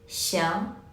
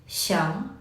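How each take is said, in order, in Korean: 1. 모음이 'ee'와 'ya' 사이에서 섞여요. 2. 모음이 'ee'와 'ya' 사이에서 섞여요.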